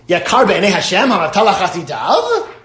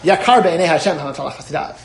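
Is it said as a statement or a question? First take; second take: question; statement. First: It is said as an incredulous question. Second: It is said as a plain statement.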